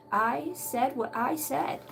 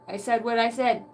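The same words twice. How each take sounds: First: Slow, drawn-out, softer restatement; emphatic finality. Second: Said in the usual way. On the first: Acted. Quoting Grandma's saying, slow and final. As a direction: stretch each word to lay down the law.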